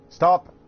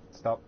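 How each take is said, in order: First: Loud sharp yell, pitched high; shouting. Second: Said in the usual way. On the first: Real, not acted. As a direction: bark it out at full volume. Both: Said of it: "Sorry for shouting very loud".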